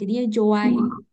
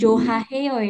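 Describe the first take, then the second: First: The h sound in the middle is dropped. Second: The h sound in the middle is pronounced. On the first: The speaker calls it right. "H ini memang dia sering banget melebur, jadi nggak terlalu kedengeran" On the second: The speaker calls it wrong. "Jangan Joha heo ya, aneh gitu"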